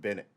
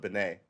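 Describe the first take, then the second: First: The name is said the American way. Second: The name is said a non-American way. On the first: "The Americans pronounce it Bennett" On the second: "other people not call it Benet"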